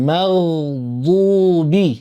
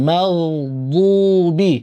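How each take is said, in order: No difference in how they are said.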